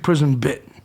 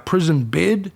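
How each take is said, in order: First: The last word ends with a t sound. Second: The last word ends with a d sound. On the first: The speaker calls it right. "it's actually prison bit" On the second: The speaker calls it wrong. "a lot of people mispronounce that word"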